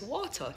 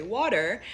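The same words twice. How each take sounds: First: "water" with no final r sound; Jamaican pronunciation. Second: "water" with a sounded final r; American pronunciation. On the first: Showing how it is said in Jamaica, Jamaican pronunciation. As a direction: Jamaican patois "water", ending in an open "ah". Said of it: "in Jamaica it's water". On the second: Showing how it is said here, American pronunciation. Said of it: "here you say water". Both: Shown as a demonstration.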